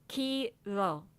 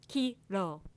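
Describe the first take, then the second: The two takes are said the same way.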